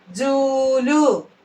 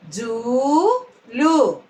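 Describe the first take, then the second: First: Said in the usual way. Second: "జూలు" split, long rising జూ, then లు; "జూలు" in two separate syllables. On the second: Shown as a demonstration. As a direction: slowly sound out "జూలు" with a gap. Teacher sounds out syllables.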